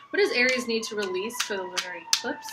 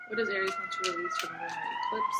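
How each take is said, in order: First: Said in the usual way. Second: Much higher, sing-song question; high squeaky voice. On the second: Shown as a demonstration. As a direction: chirp it very high. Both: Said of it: "repeats question in new voice".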